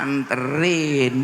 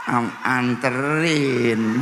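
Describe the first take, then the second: First: Slow, drawn-out, lightly lower "Anterin"; coy wife. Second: Slow, coy, drawn-out "anterin" with a giggle; a wife playing shy and pampered, stretching "anterin". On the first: Retold or imitated. Wife twisting her shirt hem answering her husband, slow and coy. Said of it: "begini nih ngomongnya". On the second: Wife answering her husband, slow and coy. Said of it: "Sambil nyaut".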